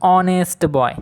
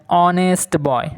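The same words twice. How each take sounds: The two takes are said the same way.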